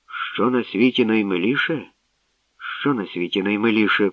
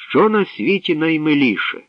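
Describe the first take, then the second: First: Riddle passed along, at ordinary pitch; murmured among people. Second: High, ringing question; ringing princess voice. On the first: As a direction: repeat it musingly through the crowd. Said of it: "покотилося між людьми". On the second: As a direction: let the riddle ring out over the crowd. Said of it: "продзвенів над майданом голосок царівни". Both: A narrator's reading.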